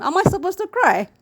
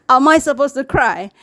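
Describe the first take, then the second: First: Higher, teasing disbelief through laughter; mock disbelief. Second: Said in the usual way. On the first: Vlogger teasing a crying student, with high mock disbelief. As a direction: throw the question back, half laughing. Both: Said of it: "I will start laughing".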